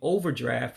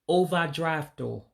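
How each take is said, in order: First: It is said with a plain English pronunciation. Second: It is said with an Igbo accent, ending in o. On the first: "instead of saying overdraft" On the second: "You just put an accent on it for the Igbo speaking community"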